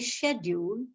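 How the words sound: It is said with a British pronunciation. "which is British"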